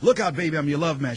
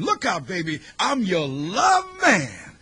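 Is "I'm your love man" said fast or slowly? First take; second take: fast; slowly. First: The last phrase is rushed quickly. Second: The last phrase is slow and emphasized.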